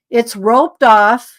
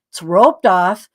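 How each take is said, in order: First: "roped" stretched out slowly with a rise at the end; slow emphatic quote. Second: Said in the usual way. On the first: Shown as a demonstration. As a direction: spell out "It's roped off" slowly, stressing "roped".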